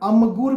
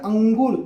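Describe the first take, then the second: First: The nasal before the g is a plain m. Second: The nasal before the g is an ng sound. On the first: The speaker calls it wrong. "म का उच्चारण किया" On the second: The speaker calls it right. "न भी नहीं है, म भी नहीं है, ये शंग है"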